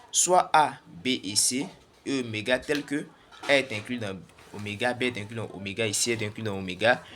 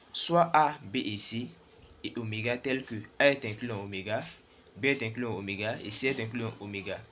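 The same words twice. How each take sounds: Both takes have the same delivery.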